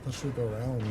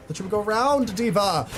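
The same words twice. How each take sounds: First: Said in the usual way. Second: Higher and louder, frustrated at the screen; exasperated yell. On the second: Real, not acted. Gamer yelling at teammate who didn't go around, exasperated. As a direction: yell it again, fed up.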